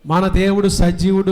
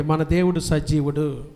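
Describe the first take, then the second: First: Louder, firm declaration; said loudly. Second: Said in the usual way. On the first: Shown as a demonstration. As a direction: proclaim it loudly to the congregation. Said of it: "చెప్పాలి గట్టిగా". (గట్టిగా ప్రకటించడం) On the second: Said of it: "పక్కనతో చెప్పండి".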